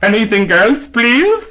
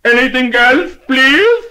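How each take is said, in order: First: Polite shopkeeper voice, higher; lightly voiced clerk asking politely; deli man asking. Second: Much higher, much louder shout; ear-splitting shout. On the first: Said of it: "said to the customer". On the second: Acted. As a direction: bellow it so a deaf lady hears. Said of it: "lifted his voice to an ear-splitting shout".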